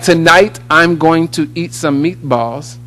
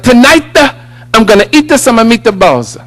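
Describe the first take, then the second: First: It is said in a plain American accent. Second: It is said with an Italian accent, vowels added.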